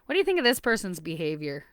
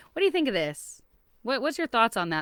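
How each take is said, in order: First: Said in the usual way. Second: "What do you think of this?" asked gently and lightly, lifted; gentle question. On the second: Shown as a demonstration. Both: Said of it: "do it in that gentle way".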